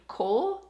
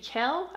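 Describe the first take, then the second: First: The name has an 'oh' vowel. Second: The name has an 'eh' vowel. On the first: The speaker calls it wrong. "I think I pronounced the dude's name Cole" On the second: The speaker calls it right. "it's supposed to be Kel"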